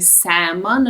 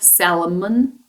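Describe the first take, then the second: First: The L sound is silent. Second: The L sound is pronounced. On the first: The speaker calls it right. "L is not pronounced. So we should say salmon" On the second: The speaker calls it wrong. "not salmon"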